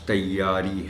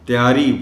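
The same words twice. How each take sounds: First: The y sound is held and doubled. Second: The y sound is short and single. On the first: The speaker calls it right. "ये के ऊपर शद का ख़ास ख्याल रखा जाना चाहिए।" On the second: The speaker calls it wrong. "यानी शद को गायब कर जाते हैं।"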